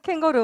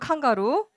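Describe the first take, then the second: First: The word begins with 'kaeng' and has 'geo'. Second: The word begins with 'kan' and has 'ga'. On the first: It is the standard form. "캥거루 맞아요" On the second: It is a local dialect form. "여기 시흥 사투리로 칸가루"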